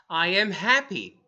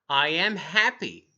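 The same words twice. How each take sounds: No difference in how they are said.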